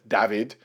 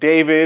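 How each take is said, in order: First: The name is said with a Spanish pronunciation. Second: The name is said with an American pronunciation. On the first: The speaker calls it wrong. "you guys say it as David" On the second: The speaker calls it right. "we have David"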